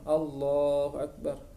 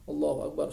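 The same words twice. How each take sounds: First: It is said calmly, followed by a pause. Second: It is said quickly, rushing to the next phrase.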